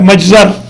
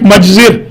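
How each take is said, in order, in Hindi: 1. आख़िरी व्यंजन से पहले का स्वर a है। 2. आख़िरी व्यंजन से पहले का स्वर i है। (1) "और मफल भी आता है" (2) "मफ़इल भी आता है"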